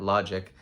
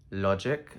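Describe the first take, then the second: First: Said in the usual way. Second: Logic with a touch of Spanish accent; slight Spanish accent. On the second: Real, not acted. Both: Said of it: "I kinda said that in a Spanish accent".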